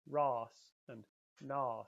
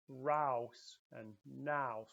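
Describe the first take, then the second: First: The vowel is an ah sound. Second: The vowel is an ow sound. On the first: This is how other dialects say it. "it's more like an ah sound" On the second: This is how some dialects say it. "with more of the ow sound"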